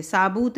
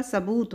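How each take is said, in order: First: साबूत said with a long first vowel, saa-boot; wrong spelling said aloud. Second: सबूत said with a short first vowel, sa-boot; correct pronunciation. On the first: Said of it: "इस तरह से साबूत नहीं होता". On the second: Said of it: "सबूत होता है हमेशा". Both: Shown as a demonstration.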